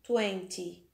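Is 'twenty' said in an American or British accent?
British. It is said with a British accent. "Os britânicos pronunciam 20"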